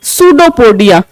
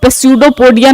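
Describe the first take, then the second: First: The word begins with an S sound. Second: The word begins with a sounded P. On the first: The speaker calls it right. "इसमें जो पी है वो silent रहता है" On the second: The speaker calls it wrong. "इसको पेस्यूडोपोडिया नहीं पढ़ना है"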